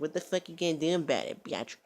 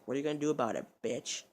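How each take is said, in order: First: Higher, louder goading with odd vowels; mock taunt. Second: Said in the usual way. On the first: Kept cursing at her to taunt, mock defiant. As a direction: stretch "bitch" into "byatch".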